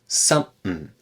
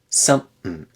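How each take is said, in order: The two takes are said the same way.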